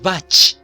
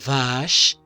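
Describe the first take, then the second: First: It has a hard 'ch' sound, as in church. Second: It has a soft hushing 'sh' sound. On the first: The speaker calls it wrong. "Si sonara che, dijéramos bach" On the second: The speaker calls it right. "No, es vash"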